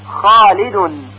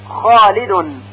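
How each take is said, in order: No difference in how they are said.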